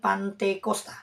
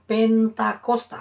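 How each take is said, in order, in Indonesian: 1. Suku kata pertama adalah 'pan', suku kedua 'te'. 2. Suku kata pertama adalah 'pen', suku kedua 'ta'. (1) "bukan Pantekosta" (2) "itu yang benar"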